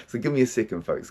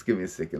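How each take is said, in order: First: Said in the usual way. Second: Much softer and lower, calming himself; softly gathering himself; settling down. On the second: Real, not acted. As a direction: drop the voice to pull yourself together. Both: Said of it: "Let me slow the fuck down".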